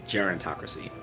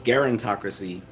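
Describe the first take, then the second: First: The word begins with a soft G sound. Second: The word begins with a hard G sound. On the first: "I've been used to saying it with the soft G" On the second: "Maybe it's a hard G and not a soft G"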